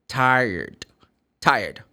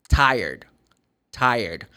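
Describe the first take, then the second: The two takes are said the same way.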